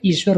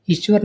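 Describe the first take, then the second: First: ईश्वर with a long ee; correct long vowel. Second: ईश्वर with a short i; wrong short vowel. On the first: Teacher corrects students, long vowel. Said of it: "इसमें बड़ी ई बनती". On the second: Teacher shows students the mistake, short vowel. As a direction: open ईश्वर on a brief i. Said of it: "नहीं होता". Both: Shown as a demonstration.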